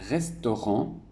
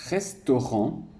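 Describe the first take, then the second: No difference in how they are said.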